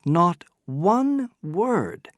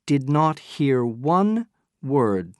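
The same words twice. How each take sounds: First: "not one word" slow and higher, "one" hit hard; emphatic repeat. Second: "one" leaned on a little, slightly slow; first statement, steady weight on "one"; stress on one. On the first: Dupin insisting to the narrator, slow emphatic "one". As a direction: drive the point home on "one". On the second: Dupin telling the narrator, measured stress on "one". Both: A narrator's reading.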